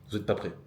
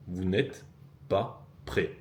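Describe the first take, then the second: First: Said in the usual way. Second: "Vous n'êtes... pas... prêts" broken up with pauses; full "n'êtes", then a pause before "pas prêts"; word-by-word emphasis. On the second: Real, not acted. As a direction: land "pas" and "prêts" as separate, deliberate beats. Same warning, spelled out word by word.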